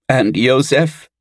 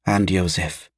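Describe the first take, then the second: First: High, drawn-out tearful question; worried girl on the edge of tears; sobbing question. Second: Hushed, falling motherly confirmation; quiet, subdued echo of the worry; soft agreement. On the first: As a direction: ask it fearfully, pitched up and slow. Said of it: "said a sobbing Anid". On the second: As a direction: agree gently, under your voice. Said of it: "agreed their mother". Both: A narrator's reading.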